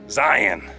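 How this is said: It is said the way he guesses Utahns say it.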